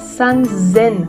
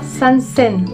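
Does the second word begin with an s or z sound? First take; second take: z; s. First: The second word begins with a z sound. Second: The second word begins with an s sound. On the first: The speaker calls it right. "on dira san zen, avec des ten ten" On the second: The speaker calls it wrong. "on ne dira pas san sen"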